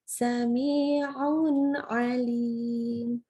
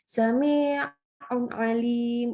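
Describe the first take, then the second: First: The nun flows straight into the next word. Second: The nun sound is rushed and cut short. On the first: The speaker calls it right. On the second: The speaker calls it wrong. "terlalu terburu-buru"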